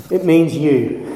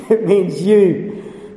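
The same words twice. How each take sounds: First: Said in the usual way. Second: Slow, pointing at each listener; slow pointed repeat. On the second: Shown as a demonstration. Preacher drives home to the congregation, slow and pointed. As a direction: drag it out, every word aimed.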